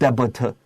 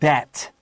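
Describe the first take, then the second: First: A B sound is pronounced before the final t. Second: No B sound is pronounced before the final t. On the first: The speaker calls it wrong. "we said debit" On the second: The speaker calls it right. "It's debt. No B"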